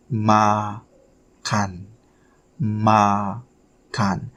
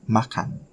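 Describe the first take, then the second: First: "makan" drawn out as "ma... kan"; syllable by syllable. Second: Said in the usual way. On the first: Shown as a demonstration. Teacher sounding out a new Indonesian word for learners, syllable by syllable. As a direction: split "makan" slowly into two syllables. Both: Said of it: "Make sure you".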